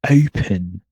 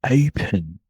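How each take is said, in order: No difference in how they are said.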